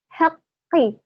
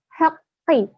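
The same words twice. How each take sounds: First: The middle consonant is held long and doubled. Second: The middle consonant is held long and doubled.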